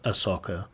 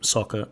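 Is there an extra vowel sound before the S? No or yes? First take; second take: yes; no. First: A short uh vowel comes before the S sound. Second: The word starts directly with the S sound.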